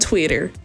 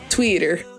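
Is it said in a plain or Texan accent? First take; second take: plain; Texan. First: It is said in a plain accent. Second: It is said in a Texan accent.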